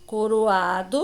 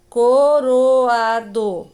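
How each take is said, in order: First: Said in the usual way. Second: Coroado slowly as co... ro... a... do; split into syllables. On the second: Shown as a demonstration. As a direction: sound out coroado in four separate, drawn-out beats. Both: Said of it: "O O e o A".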